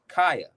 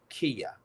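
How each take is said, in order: First: The first syllable sounds like 'kye'. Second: The first syllable sounds like 'key'. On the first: The speaker calls it right. "I'm sorry. My mistake" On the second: The speaker calls it wrong. "Did I say it right?"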